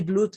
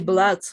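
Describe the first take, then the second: First: The vowel is a rounded oo sound. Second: The vowel is an open uh sound. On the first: The speaker calls it wrong. "you don't say blood" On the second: The speaker calls it right. "you say blood as an A, opening the mouth"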